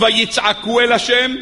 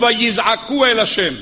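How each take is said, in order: First: ויצעקו said slowly with a clear ts sound, vayitsaku; stressing the tsade in ויצעקו. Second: ויזעקו said slowly with a buzzing z, vayizaku; stressing the zayin in ויזעקו. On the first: Rabbi contrasting the verses for his students, ויצעקו said slowly with ts. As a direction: lean on the tsade of ויצעקו, slow and deliberate. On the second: Rabbi contrasting the verses for his students, ויזעקו said slowly with z. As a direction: lean on the zayin of ויזעקו, slow and deliberate. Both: Shown as a demonstration. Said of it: "למה פה צעקה ופה זעקה".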